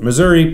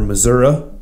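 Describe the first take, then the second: First: It is said in the general American way. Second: It is said the way Missouri locals say it.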